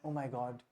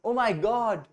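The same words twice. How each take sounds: First: It is said in a sad, sorrowful tone. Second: It is said in an excited, happy tone. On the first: Some sad news has been heard. "But वहीं पे आप sad हैं" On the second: Something good has happened. "आप बहुत excited हैं, happy हैं"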